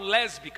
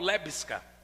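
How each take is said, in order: First: The s sound comes before the b sound. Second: The s sound comes after the b sound. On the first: "eu não falo lésbica" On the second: "eu brinco, ... eu falo lébisca"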